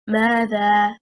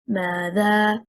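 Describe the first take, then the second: First: The stress is on the first syllable. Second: The stress is on the second syllable. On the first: It is a single interrogative word. The speaker calls it right. "stressing on the first حركة, حركة الميم, is one word" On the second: The word is split into two. The speaker calls it wrong. "The incorrect performance, if we stress on the second حركة"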